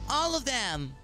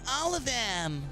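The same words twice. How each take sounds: First: The voice is light, without a deep growl. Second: The voice is deep with a masculine growl.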